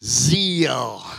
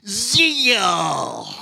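First: Said in the usual way. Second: "Zeal" stretched into two syllables, ze-al. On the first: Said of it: "Say zeal". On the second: Shown as a demonstration. Pastor shows congregation how to stretch zeal. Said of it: "Make two syllables out of it".

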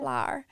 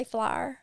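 First: "Flour." said as one syllable, flow-er; flour said plainly. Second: "flyer" said like fly-er, two syllables; flour as flyer. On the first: Correcting to the standard form for a friend, "Flour." said plainly. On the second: Stepmom showing her Mississippi word, "flyer" as fly-er. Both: Shown as a demonstration. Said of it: "But I say flyer".

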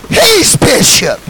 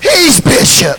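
First: Drawn-out slow He's bishop; slow proclamation. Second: He's bishop shouted out; shouted repeat. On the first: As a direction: stretch He's bishop slowly. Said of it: "slow proclamation". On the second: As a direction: call He's bishop out loud. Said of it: "shouted repeat". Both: Real, not acted.

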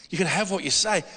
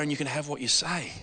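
First: Said in the usual way. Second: Quiet quote. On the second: Retold or imitated. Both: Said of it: "says the other way".

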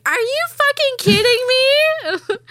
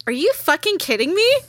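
First: Very high, loud, slow mock wail; hammed-up tearful outburst, falling at the end; imitated crying disbelief. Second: Higher-pitched incredulous question; mock-indignant, rising at the end; retold disbelief. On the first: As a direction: draw it out like an ugly cry. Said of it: "I'm, like, ugly crying". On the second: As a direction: imitate your own bitchy reaction. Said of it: "I'm such a fucking bitch".

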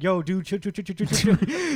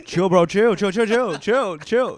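First: High, loud bro telling him to chill; hammed-up bro pleading chill chill; frat bro. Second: High, loud chill bro echo; hammed-up bro pleading chill chill; frat bro. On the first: Bishop acted calming Iceman. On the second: Echoing Bishop's bro voice.

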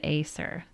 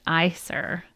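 First: "Aesir" said with a first vowel like "ay"; mispronounced Aesir. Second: "Aesir" said with a first vowel like "eye"; corrected pronunciation of Aesir. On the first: Reader recalling her slip, "Aesir" said as AY-ser. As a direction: say "Aesir" as AY-seer, quoting the slip. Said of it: "I think I said Aesir". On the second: Reader correcting herself, "Aesir" said as EYE-ser. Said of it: "so it's pronounced Aesir". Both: Shown as a demonstration.

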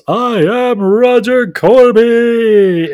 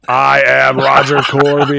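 First: Drawn-out high, loud bellow; Roger Corby screaming. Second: Loud, slow declaration near usual pitch; Roger Corby mock-belting. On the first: Retold or imitated. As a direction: belt it out, stretching every word. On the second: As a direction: announce it grandly, stretching it out. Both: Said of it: "while Roger screams".

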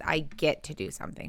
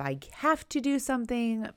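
First: "I" and "get" stressed, falling end. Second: "have" leaned on a little; stress on have. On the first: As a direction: lean on "get" in "I get to do something". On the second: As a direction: lean on "have" in "I have to do something". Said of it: "I have to do something" versus". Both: Shown as a demonstration.

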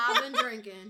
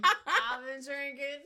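First: Laughing. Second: Slow mock repeat. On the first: Real, not acted. Laughing repeat.

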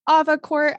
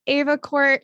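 First: "Avacourt" opening on a broad AH; AH-va pronunciation. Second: "Avacourt" opening on a long AY, as in ace; AY-va pronunciation. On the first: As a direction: say "Avacourt" as AH-vuh-court. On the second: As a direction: say "Avacourt" as AY-vuh-court. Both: Shown as a demonstration. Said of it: "correct way to pronounce it".

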